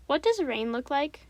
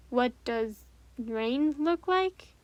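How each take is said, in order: First: Said in the usual way. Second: Very slow, drawn-out repeat; slow puzzled echo. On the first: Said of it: "Annie asks her question". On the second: Acted. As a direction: repeat it slowly, thinking it over. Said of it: "Anthony repeats it slowly, puzzled".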